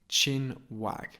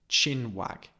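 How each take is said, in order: The two takes are said the same way.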